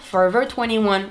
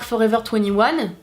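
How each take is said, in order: First: It is said with an English accent. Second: It is said with a plain French accent.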